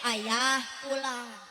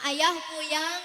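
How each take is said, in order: First: The L is pronounced as a clear L. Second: The L is replaced by a Y sound. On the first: It is what the child actually means. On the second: A small child with a lisp is saying it.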